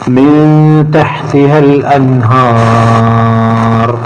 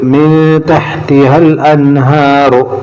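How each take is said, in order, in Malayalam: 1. നീണ്ട സ്വരം നീട്ടിത്തന്നെയാണ്, ഒരു നിർത്തലിൽ അവസാനിക്കുന്നു. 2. നീണ്ട സ്വരം ഹ്രസ്വമാണ്, അവസാനം 'u' ഉണ്ട്. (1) "വഖഫ് ചെയ്യുകയാണെങ്കിൽ ... എന്ന് പറഞ്ഞ് നിർത്താം" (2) "നിർത്തുന്നില്ലെങ്കിൽ ... രണ്ട് ഖദർ നീട്ടാൻ പാടുള്ളൂ"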